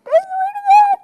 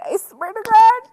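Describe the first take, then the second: First: Squeaky, much higher and a bit louder; squealed oath. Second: Higher, eager swear; excited oath. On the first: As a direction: squeal it with delight. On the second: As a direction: insist it's true, voice lifting. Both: Real, not acted.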